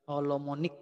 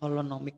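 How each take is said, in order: First: The word ends with the syllables 'mo-nic'. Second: The word ends with the syllables 'no-mic'. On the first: The speaker calls it wrong. "Dulu saya juga kebalik-balik menyebut ini" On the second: The speaker calls it right. "Harusnya holonomic yang benar ya"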